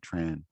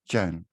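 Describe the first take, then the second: First: The name is said the English way. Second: The name is said the southern Vietnamese way. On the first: "when you go to English speaking countries, they say Tran" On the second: "In the south, it's pronounced Chan"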